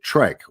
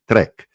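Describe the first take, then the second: First: It is said with an English pronunciation. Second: It is said with an Afrikaans pronunciation. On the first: The speaker calls it wrong. "although I'm not pronouncing it exactly right" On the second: The speaker calls it right. "the Afrikaans pronunciation, it would be trek"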